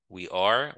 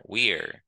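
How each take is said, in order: First: "We are" as two separate words; uncontracted "We are", both syllables heard; full form. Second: "we're" as one syllable, falling; "we're", the are reduced to an r; contracted form. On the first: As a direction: sound are fully in "We are". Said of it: "ça, c'est forme complète". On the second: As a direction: glide we straight into r for "we're". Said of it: "Ça, c'est forme contractée". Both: Shown as a demonstration.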